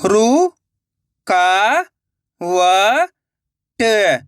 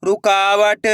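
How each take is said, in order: First: रु-का-व-ट spoken one slow drawn-out syllable at a time. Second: Said in the usual way. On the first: Shown as a demonstration. Teacher sounding out a word for children, syllable by syllable. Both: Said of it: "तो मिलके बन जाएगा".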